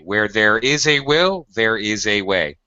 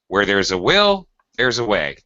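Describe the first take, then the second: First: 'There is' is said as two full words. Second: 'There is' is reduced to 'there's'. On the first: The speaker calls it wrong. "It sounds weird to say ... That just sounds completely unnatural" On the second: The speaker calls it right. "Is the only way you can say that"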